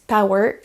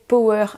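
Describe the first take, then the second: First: The O is not said like a French O. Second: The O is said like a French O. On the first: Listeners understand the word. The speaker calls it right. "là on vous comprend, vous avez une bonne prononciation" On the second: Listeners would not understand the word. The speaker calls it wrong. "comme un bon français, power en prononçant le O comme un O"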